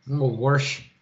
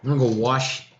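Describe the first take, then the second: First: "wash" said with an added r, like "warsh"; Boston "warsh". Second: Said in the usual way. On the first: Shown as a demonstration. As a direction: sneak an r into "wash". Boston accent joke.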